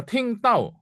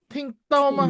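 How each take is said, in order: First: Ting tau said high, tau falling; teacher mimicking a mistake; mimic wrong tones. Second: Tau much higher, dropping sharply in fourth tone; teacher showing fourth tone; fourth tone demo. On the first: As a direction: show how students get ting tau wrong. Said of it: "Ting tau apa?". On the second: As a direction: punch tau down from high. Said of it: "mesti nada empat". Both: Shown as a demonstration.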